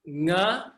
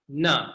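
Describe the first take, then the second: First: "Nga" with the tongue back, velar ng; correct nga. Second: "na" with the tongue tip at the front; incorrect na. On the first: Teacher models the correct nga for the class. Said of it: "Correct is nga". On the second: Teacher models the wrong na for contrast. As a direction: say "na" with the tongue forward. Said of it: "Incorrect is na". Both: Shown as a demonstration.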